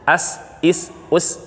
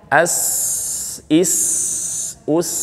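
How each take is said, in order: First: The s sound is cut off quickly. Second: The s sound is held and flows fully. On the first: The speaker calls it wrong. "Jadi kalau segini belum. ... Itu kurang" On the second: The speaker calls it right. "Nah, itu mengalir"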